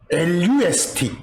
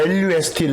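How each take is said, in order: First: 엘유에스티 read out letter by letter, slowly; letters spelled slowly. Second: Said in the usual way. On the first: Shown as a demonstration. Teacher to students, spelling 엘유에스티 slowly. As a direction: spell out 엘유에스티 deliberately, one letter at a time.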